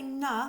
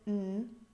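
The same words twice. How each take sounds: First: The n sound ends with a short 'uh' vowel. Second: The n sound is said with no vowel after. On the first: The speaker calls it wrong. "if I say n instead of n" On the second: The speaker calls it right. "instead of n"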